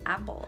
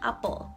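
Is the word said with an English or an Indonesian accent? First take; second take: English; Indonesian. First: It is said with an English accent. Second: It is said with an Indonesian accent. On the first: "in English" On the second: "But in Indonesian"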